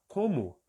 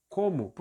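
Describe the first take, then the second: The two takes are said the same way.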